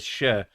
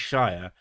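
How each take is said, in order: First: It is said as it sounds inside a longer word. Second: It is said as the full standalone word. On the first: This is how it sounds as part of a longer name. "you pronounce it as Shire when it's in a word" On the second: This is how the word sounds on its own. "the word is Shire"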